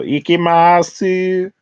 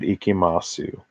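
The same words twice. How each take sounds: First: It is said in a very high, girly voice. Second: It is said in a plain, normal voice.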